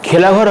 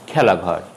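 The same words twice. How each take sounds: First: খেলাঘর with closed "e"; closed first vowel. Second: খেলাঘর with open "ae"; খেলাঘর with "ae" as in "cat"; open first vowel. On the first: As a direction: say খেলাঘর as "khelaghor". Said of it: "হবে না". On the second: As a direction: say খেলাঘর as "khaelaghor". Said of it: "উচ্চারণ হবে". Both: Shown as a demonstration.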